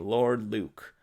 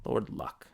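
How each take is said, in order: First: The name has a long 'oo' vowel. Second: The name has a short 'uh' vowel. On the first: The speaker calls it right. "there's a guy named Lord Luke" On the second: The speaker calls it wrong. "I called him Lord Luck"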